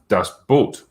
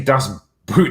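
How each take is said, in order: First: The second word has a long 'oh' vowel. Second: The second word has an 'oo' vowel. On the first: The speaker calls it right. "say Das Boat instead" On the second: The speaker calls it wrong. "don't say Das Boot"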